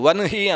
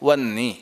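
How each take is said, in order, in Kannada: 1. n ನಂತರ h ಧ್ವನಿ ಕೇಳಿಸುತ್ತದೆ. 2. h ಧ್ವನಿ ಕೇಳಿಸುವುದಿಲ್ಲ, n ಮಾತ್ರ ಕೇಳಿಸುತ್ತದೆ. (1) "ವನ್ಹಿ ಅನ್ನಬಾರ್ದು" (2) "ವನ್ನಿ ಅಂತ ಅದನ್ನು ಉಲ್ಲೇಖ ಮಾಡುವುದು"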